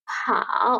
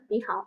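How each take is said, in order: First: হাও said alone with its full dipping third tone; full isolated tone. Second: নি হাও run together softer, without the full dip on each word; relaxed connected tones. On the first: Teacher shows a student full-tone হাও on its own. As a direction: give হাও the whole careful dip, as a single word. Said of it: "এভাবে করে আমরা পড়বো শুধুমাত্র একটা ওয়ার্ডকে individually বলার সময়". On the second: Teacher shows a student connected-speech নি হাও. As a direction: glide নি হাও lightly as one phrase. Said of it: "এত জোর দিয়ে আসলে আমাদের উচ্চারণ বলতে হবে না".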